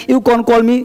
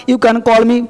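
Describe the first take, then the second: No difference in how they are said.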